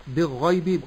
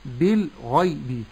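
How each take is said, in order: First: "بالغيب" with the l swallowed into the gh; wrong merged lam. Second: Slow "بالغيب" with the l fully sounded; correct clear lam. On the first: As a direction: drop the l of "بالغيب" and double the ghayn. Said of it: "بإدغام اللام في الغين". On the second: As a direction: separate "bil" from "ghaybi" in "بالغيب". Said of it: "الصحيح". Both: Shown as a demonstration.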